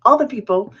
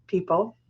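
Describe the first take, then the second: First: "all" punched louder with a falling end; stress on all. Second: Said in the usual way. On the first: Shown as a demonstration. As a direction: hit "all the people" harder as a correction.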